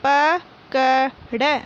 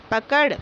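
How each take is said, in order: First: पकड़ drawn out very slowly as प-क-ड़; slow syllable reading. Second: Said in the usual way. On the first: Shown as a demonstration. Teacher reading पकड़ aloud for pupils, very slowly. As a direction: spell out पकड़ aloud, one syllable at a time. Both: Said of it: "मौखिक बोलकर पढ़िए".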